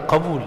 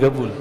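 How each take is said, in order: First: It is said in standard Arabic, starting with q. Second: It is said in a Hadrami accent, starting with g.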